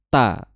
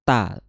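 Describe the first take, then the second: First: The consonant is a clean t sound. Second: The consonant is a clean t sound.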